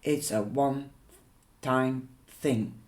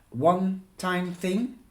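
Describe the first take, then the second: First: Said in the usual way. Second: Disbelieving rise on thing; incredulous echo. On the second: Acted. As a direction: throw the words back in disbelief. Fiona echoes it back incredulously.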